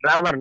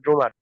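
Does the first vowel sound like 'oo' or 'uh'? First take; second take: uh; oo. First: The first vowel is an open 'uh' sound. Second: The first vowel is a rounded 'oo' sound. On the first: The speaker calls it right. "ড্রামার not ড্রুমার" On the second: The speaker calls it wrong. "Not ড্রুমার"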